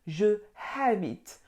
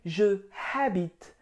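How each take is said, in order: First: Je is a separate syllable before habite. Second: The same.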